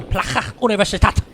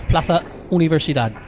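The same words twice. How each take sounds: First: Plaza Universitat in a higher, put-on German accent; accidental German accent. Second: Spanish accent, a lisped z in Plaza; Spanish pronunciation. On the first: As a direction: slip into a mock German accent for Catalan. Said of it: "say it with a German accent". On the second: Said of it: "as they say in Spanish". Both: Shown as a demonstration.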